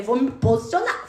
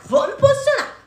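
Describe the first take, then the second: First: Said in the usual way. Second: Rising resolve. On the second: Retold or imitated. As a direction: repeat "posicionar" far higher, determined. (repetindo "posicionar" bem mais agudo, decidida) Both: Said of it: "Eu falei".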